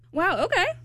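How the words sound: It sounds mocking and sarcastic.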